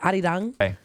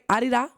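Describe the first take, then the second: First: The word ends with an ng sound. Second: The word ends on a plain vowel.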